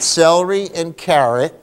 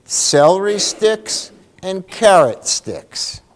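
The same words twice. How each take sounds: First: Said in the usual way. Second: Celery sticks and carrot sticks said slowly and higher, carrot hit hardest; slow stressed example. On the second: Shown as a demonstration. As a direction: drag out each word, lean on carrot. Teacher stressing example words.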